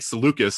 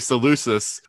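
First: The c is said as a k sound. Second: The c is said as an s sound. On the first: "they're saying Seleucus in the story, which is probably actually accurate" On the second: "I always want to say Seleucus"

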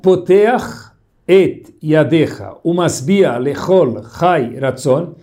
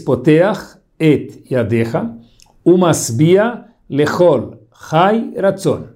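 First: It is said at normal speed. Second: It is said slowly, word by word.

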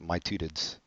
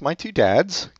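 First: The words are squeezed into a mangled, put-on pronunciation. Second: The words are pronounced clearly and normally. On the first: "That's how they would pronounce it" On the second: "No, that's my two dads"

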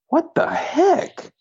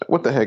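First: It is said in an imitated little-kid voice. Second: It is said in a plain, ordinary voice.

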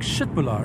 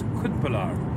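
First: The word begins with a soft sh sound. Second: The word begins with a hard k sound. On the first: It is said the way locals say it. The speaker calls it right. "You do not pronounce it like the way you pronounce it in Germany" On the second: It is read the way it is spelled. The speaker calls it wrong. "The way it's written, it's Köttbullar"

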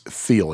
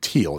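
First: The name begins with a TH sound. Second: The name begins with a plain T sound. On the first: The speaker calls it right. "it's Thiel. And his name, the TH, is pronounced like a real TH" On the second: The speaker calls it wrong. "I was mispronouncing David Thiel's name too. I was saying David Thiel"

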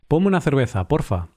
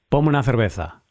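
First: It is said in a friendly, polite tone. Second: It is said in an angry, impatient tone.

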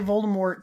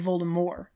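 First: The final T sound is pronounced. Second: The final T sound is silent. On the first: "in the films they all say Voldemort" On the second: "in the audiobooks they say Voldemort. They drop the T"

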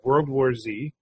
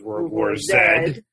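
First: The last letter is said as 'zee'. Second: The last letter is said as 'zed'. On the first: The speaker calls it wrong. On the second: The speaker calls it right.

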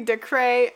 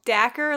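First: The name ends in a 'cray' sound. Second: The name rhymes with knacker, with a short vowel. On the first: "Or it could be Decray" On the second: "like the word knacker"

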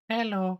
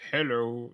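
First: Abe's hello sounds cute and reserved. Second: Abe's hello sounds goofy and clownish.

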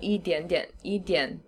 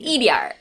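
First: The word ends with an n sound. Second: The word ends with an added r sound. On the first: "The South, yar. They add like, so it'd be idian" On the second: "in the North you say like idiar. They have this like r"

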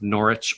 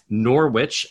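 First: The name is said the British way. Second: The name is said the American way.

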